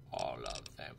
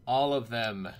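First: Very low, softer voice; mock-dramatic echo. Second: Loud, firm declaration; emphatic. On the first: Gamer echoing his big purchase, low mock-dramatic voice. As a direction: drop deep and quiet for effect. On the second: Pretend. Gamer buying all the shotgun rounds, loud and emphatic. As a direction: declare it forcefully. Emphatic purchase, then echoed low.

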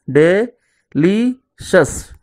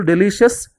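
First: "delicious" very slowly as de - li - shes; long pauses between each syllable of "delicious"; split into syllables. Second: Said in the usual way. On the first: Shown as a demonstration. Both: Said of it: "divide the words into syllables".

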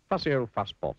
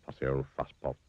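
First: High, lively taunt; storybook jeer, raised and falling; teasing name-calling. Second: Low, understated name-calling; dry low repeat of the taunt; muttered aside. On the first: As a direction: call it out teasingly, pitched up. Narrator voices people's teasing nickname. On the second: Narrator repeats the nickname as aside. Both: A narrator's reading.

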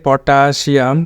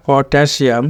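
First: পটাশিয়াম said the everyday Bengali way, with a long "taa"; common mispronunciation. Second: পটাশিয়াম with "tae" as in "tap" in the middle; correct English pronunciation. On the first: Teacher shows learners how we usually say পটাশিয়াম, mispronounced. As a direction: say পটাশিয়াম with a plain "aa" in the middle. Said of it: "আমরা বলি পটাশিয়াম". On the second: Teacher corrects learners, পটাশিয়াম carefully pronounced with "tae". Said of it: "পটাশিয়াম হবে না". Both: Shown as a demonstration.

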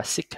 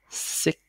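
First: "six" cut short as "sick"; wrong, missing final S. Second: "six" with a K stop, then lengthened S; long final S. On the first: Teacher shows how not to read it, final S dropped from "six". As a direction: drop the closing S from "six". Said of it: "không phải đọc là six". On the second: Teacher models the correct reading, "six" ending in long KS. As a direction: close "six" on K and hiss the S out. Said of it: "Âm S, ờ, dài ra tí ha". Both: Shown as a demonstration.

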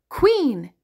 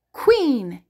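No difference in how they are said.

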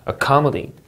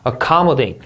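First: "accommodate" again, stress on -com-, falling end; repeated model of "accommodate"; word stress repeat. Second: "Accommodate" with stress on the second syllable, falling; teacher model of "Accommodate"; word stress demo. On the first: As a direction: echo "accommodate" with the same stress. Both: Shown as a demonstration. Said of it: "강세주의에서 여러분 단어 읽을 수 있어야".

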